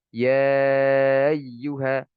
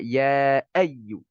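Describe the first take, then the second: First: The glottal stop is softened away. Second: The glottal stop is clearly pronounced. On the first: The speaker calls it wrong. "ini salah ya" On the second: The speaker calls it right. "ya e ya harus jelas"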